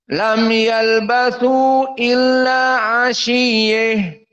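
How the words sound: The word ends shortened, with a stop after it. "Namun jika sukun, afwan, waqaf"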